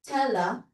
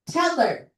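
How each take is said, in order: First: The final R sound is dropped. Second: The final R sound is clearly pronounced. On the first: This is how people in the UK say it. "They kind of omit the R" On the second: This is how Americans say it. "ganyan yung American sound"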